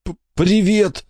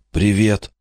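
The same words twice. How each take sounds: First: High, slow, stammered greeting; boy greets his rescued friend, crying and smiling; squeezed out through tears. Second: Said in the usual way. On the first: A narrator's reading. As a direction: laugh and cry at once. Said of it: "выдавил Жуки, плача и улыбаясь". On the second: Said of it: "выдавил Жуки".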